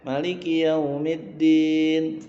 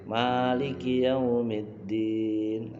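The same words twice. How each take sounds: First: The first vowel of Maliki is kept short. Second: The first vowel of Maliki is held long. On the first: He rules through authority. "nanti rakaat kedua boleh" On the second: He rules through ownership. "Pertamanya dua harakat"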